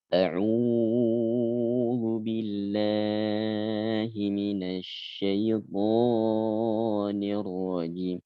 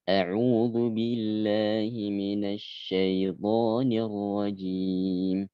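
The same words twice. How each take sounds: First: The long vowels are stretched longer than normal. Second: The long vowels are held at normal length. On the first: The speaker calls it wrong. "Namun dibaca lebih panjang daripada itu" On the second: The speaker calls it right.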